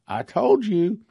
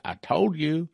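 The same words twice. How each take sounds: First: Told pitched up high, insistent; vindicated repeat; emphatic I told you. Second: Said in the usual way. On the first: Real, not acted. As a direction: hit told hard the second time.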